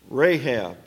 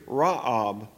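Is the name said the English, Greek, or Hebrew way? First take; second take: English; Greek. First: The name is said the familiar English way. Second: The name is said the Greek way. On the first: "I've been calling her that for so many years" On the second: "and in the Greek, Ra'ab"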